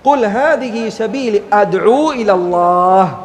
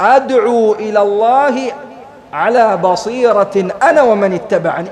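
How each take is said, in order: First: It stops after ilallah, ending the phrase there. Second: It runs on without stopping after ilallah. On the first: The certainty is stressed as a separate statement. "അവിടെ നിർത്തുക" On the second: The certainty belongs to the inviting. "ഇങ്ങനെ ചേർത്തുകൊണ്ട് ഓതാ"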